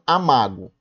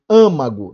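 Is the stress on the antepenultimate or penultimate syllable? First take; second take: penultimate; antepenultimate. First: The stress is on the second-to-last syllable. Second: The stress is on the third-to-last syllable. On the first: The speaker calls it wrong. "não amago" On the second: The speaker calls it right. "uma número três"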